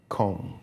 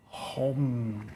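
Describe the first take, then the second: First: The word begins with a hard K sound. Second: The word begins with a breathy H-like sound. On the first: It is read the way the spelling looks to a Westerner. The speaker calls it wrong. "to the American mind, uh, or to the Western, that would look like Kong" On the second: It is said the way native speakers say it. The speaker calls it right. "in Vietnamese, they pronounce it like this"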